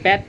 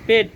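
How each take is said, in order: First: The vowel is an open 'a' as in cat. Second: The vowel is an 'e' as in pet. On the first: The speaker calls it wrong. "প্যাট না" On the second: The speaker calls it right. "ওটা বলতে হয় পেট।"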